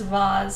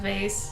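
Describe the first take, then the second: First: It is said in a fancy, French-style way. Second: It is said in a plain everyday way. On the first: It makes the speaker sound pretentious. The speaker calls it wrong. "Who says vase instead of" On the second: The everyday way most people say it. The speaker calls it right. "instead of vase"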